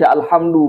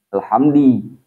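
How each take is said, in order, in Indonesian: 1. Kata ini diakhiri vokal u. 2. Kata ini diakhiri vokal i. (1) "Mubtada itu wajib hukumnya dhammah. Makanya dibaca alhamdu" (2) "bukan alhamdi"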